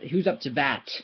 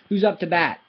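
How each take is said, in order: First: The final t is clearly released. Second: The final t is held and not released. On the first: The speaker calls it wrong. "I don't say that" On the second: The speaker calls it right. "You're just saying you're doing the same"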